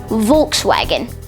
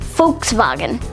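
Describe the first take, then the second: First: The word is said with an English pronunciation. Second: The word is said with a German pronunciation. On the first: "The way that most people would pronounce it" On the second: "the official German pronunciation is actually"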